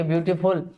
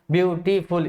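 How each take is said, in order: First: Said in the usual way. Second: ब्यूटीफुल broken into ब्यू, टी, फुल; syllable by syllable. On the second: Shown as a demonstration. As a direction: say ब्यूटीफुल in three separate syllables. Breaks word up to show syllables. (ब्यूटीफुल को तीन हिस्सों में तोड़कर)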